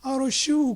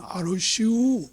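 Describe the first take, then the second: First: A short falling 알으시오 in lazy Chungcheong dialect; Chungcheong dialect reply. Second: Slow, falling 알으시오 in Chungcheong dialect; Chungcheong dialect reply. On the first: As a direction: drop 알으시오 flat at the end, Chungcheong style. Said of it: "선거철이나 이런 때 보면". (충청도 사투리로 짧게 내리는 알으시오) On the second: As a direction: drawl 알으시오 down slowly, Chungcheong style. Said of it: "뭘 얘기하면". (충청도 사투리로 느리게 내리는 알으시오) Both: Retold or imitated.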